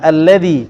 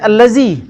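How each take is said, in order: First: The middle consonant is made with the tongue out. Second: The middle consonant is made with the tongue inside. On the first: The speaker calls it right. "keluarkan lidah" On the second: The speaker calls it wrong. "jangan baca allazi"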